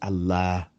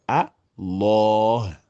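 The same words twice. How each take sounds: First: The L is light and not emphatic. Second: The L is heavy and emphatic. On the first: "on désamplifie" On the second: "en emphatisant le lam"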